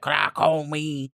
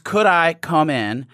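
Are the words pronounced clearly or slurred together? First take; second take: slurred; clearly. First: The words are slurred and run together. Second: The words are pronounced clearly and separately.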